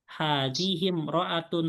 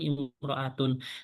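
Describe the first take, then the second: First: The 'i' vowel is dropped and linked over. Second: The word begins with a clear 'i' vowel. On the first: The word comes in the middle of the sentence. "di tengah kalimat, i-nya tidak dibaca" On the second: The word starts the sentence. "di awal kalimat, maka i-nya dibaca"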